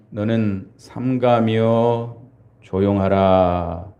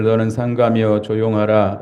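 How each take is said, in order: First: Each word drawn out slowly; slow emphatic repeat. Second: Said in the usual way. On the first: Shown as a demonstration. Pastor repeating the verse slowly to the congregation, drawn out. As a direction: linger on every syllable of 너는 삼가며 조용하라.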